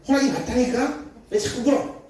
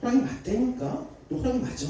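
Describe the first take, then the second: First: Annoyed mother. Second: Irritated mother. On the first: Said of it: "막 짜증내기 시작했어요". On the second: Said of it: "엄마가 막 짜증나기 시작했어". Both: Retold or imitated.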